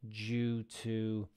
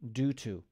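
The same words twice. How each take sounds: First: The word 'due' begins with a J sound. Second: The word 'due' begins with a D sound. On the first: "I pronounce it like a J in my name" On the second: "They might say due to"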